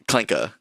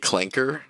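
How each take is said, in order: First: The final R is dropped. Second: The final R is clearly pronounced. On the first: The speaker calls it right. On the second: The speaker calls it wrong. "I was using the hard R"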